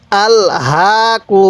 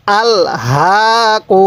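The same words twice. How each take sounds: The two takes are said the same way.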